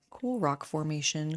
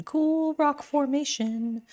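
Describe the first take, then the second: First: Said in the usual way. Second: Much higher and slow; high playful voice. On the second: Shown as a demonstration. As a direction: lift it up high, savouring it.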